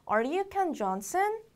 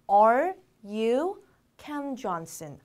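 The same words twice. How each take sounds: First: "Are you Ken Johnson" run together, higher, rising at the end; connected question. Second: Very slow, each word held apart; word-by-word model. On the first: Teacher repeating the question for learners, linked with a high rising end. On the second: Teacher showing learners how to ask someone's name, word by word. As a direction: spell out the question word by word. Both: Shown as a demonstration. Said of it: "어떻게 물어볼까요?".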